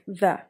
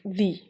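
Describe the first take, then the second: First: The vowel is a short, weak 'uh'. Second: The vowel is a long 'ee'. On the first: The next word starts with a consonant. "If it's consonant letter, so it's going to be pronounced like the" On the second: The next word starts with a vowel. "If it's vowel, then you have to pronounce it like the"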